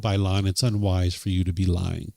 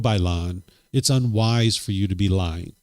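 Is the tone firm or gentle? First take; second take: gentle; firm. First: It is said in a gentle, soft tone. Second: It is said in a firmer tone and tempo. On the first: "Instead of saying" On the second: "A little bit firmer"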